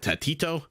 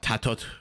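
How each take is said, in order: First: The name ends without a T sound. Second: The name ends with a T sound. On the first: "T ninety pronounces it Tatito" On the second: "Mem pronounces it Tatot with a T at the end"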